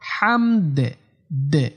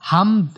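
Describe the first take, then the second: First: The final d bounces with a short echo. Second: The final d is cut off flat. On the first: The speaker calls it right. "লাস্টে দাল একটু কলকলা করতে হবে" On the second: The speaker calls it wrong. "হামদ এরকম বলে বলা যাবে না"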